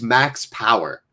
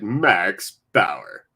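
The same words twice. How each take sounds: First: It is said in a plain, normal voice. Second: It is said in a dramatic superhero voice.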